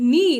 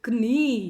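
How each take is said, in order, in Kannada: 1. ಈ ಪದ n ಶಬ್ದದಿಂದ ಆರಂಭವಾಗುತ್ತದೆ. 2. ಈ ಪದ k ಶಬ್ದದಿಂದ ಆರಂಭವಾಗುತ್ತದೆ. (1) "that is how we call ಕೆ ಎನ್ ಇ ಇ as ನೀ" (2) "ನಾಟ್ ಕ್ನೀ"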